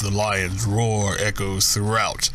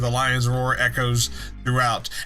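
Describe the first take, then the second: First: It is read in a put-on serious voice. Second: It is read in an ordinary speaking voice.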